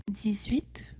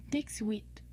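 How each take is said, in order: First: Said in the usual way. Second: "dix-huit" with ks in "dix"; demonstrated pronunciation. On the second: Shown as a demonstration. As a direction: say "dix-huit" like "dicks-wheat". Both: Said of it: "This is pronounced".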